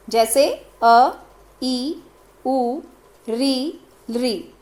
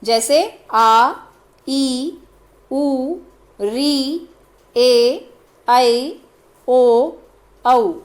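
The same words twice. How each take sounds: First: अ ई उ री each clipped to a single beat; short vowels. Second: आ stretched out slowly to a double beat; long vowels. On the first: Teacher shows the short vowels, each held one beat. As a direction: say every vowel short, one mātrā only. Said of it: "जिनको बोलने में एक मात्रा का समय लगे". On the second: Teacher shows the long vowels, each drawn out double length. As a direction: hold each vowel for twice the time. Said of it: "दो मात्रा का समय लगे, दुगना समय लगे". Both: Shown as a demonstration.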